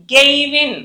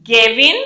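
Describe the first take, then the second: First: గెయివిన్ drawn out as "gey-i-vin"; గెయివిన్ with a long two-part first vowel; full EY glide. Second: గెవిన్ with a short "ge", no glide; గెవిన్ as "ge-vin", rising at the end; fast-speech form. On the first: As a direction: let the i-glide be heard in గెయివిన్. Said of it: "అనాలి". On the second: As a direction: keep the first vowel of గెవిన్ short. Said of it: "గెయ్ అనేస్తాం కదా". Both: Shown as a demonstration.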